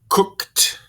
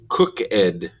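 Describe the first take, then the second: First: The ending is a single t sound. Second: The ending is a separate 'ed' syllable. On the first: The speaker calls it right. "We want to say cooked" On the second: The speaker calls it wrong. "We don't want to say cook ed"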